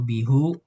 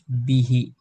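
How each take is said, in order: First: The word ends with a u vowel. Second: The word ends with an i vowel. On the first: The speaker calls it wrong. "atau bihu" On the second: The speaker calls it right. "tapi harus bihi"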